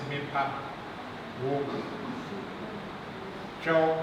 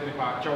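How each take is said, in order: First: Each part is said separately with pauses. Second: The parts run together into one quick phrase. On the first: "spelled like this" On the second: "this runs together in actual pronunciation"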